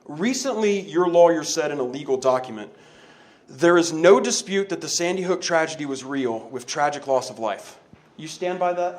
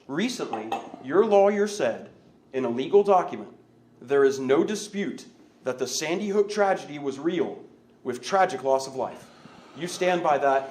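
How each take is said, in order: First: It is said fast. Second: It is said slowly.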